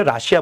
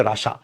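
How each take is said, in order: First: "রাশিয়া" as Ra-shi-ya; non-English pronunciation. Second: "রাশা" as Ra-sha; English pronunciation. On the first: Teacher quoting what is not said in English, "রাশিয়া" as Ra-shi-ya. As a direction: keep the i glide in "রাশিয়া". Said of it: "English উচ্চারণ হচ্ছে রাশিয়া বলি না". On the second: Teacher repeating the English form, "রাশা" as Ra-sha. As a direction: drop the i glide, just two syllables in "রাশা". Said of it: "English উচ্চারণ তো এটা হচ্ছে রাশা". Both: Shown as a demonstration.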